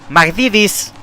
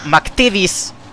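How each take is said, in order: First: The first t is softened into a d sound. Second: The first t stays a crisp t sound. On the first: The speaker calls it wrong. "Not the first, not not not the first T" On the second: The speaker calls it right. "The first T is a T, but the other two T's are D's"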